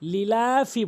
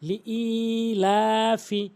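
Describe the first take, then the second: First: The first vowel is short, not drawn out. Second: The first vowel is drawn out long. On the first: The speaker calls it wrong. "অধিকাংশ লোক যে ভুলটি এখানে করে সেটি হচ্ছে লিলাফি বলে" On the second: The speaker calls it right. "সঠিক উচ্চারণ হচ্ছে লিই... এক আলিফ টেনে পড়তে হবে"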